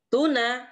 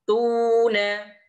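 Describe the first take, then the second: First: The first vowel is short and quick. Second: The first vowel is held long.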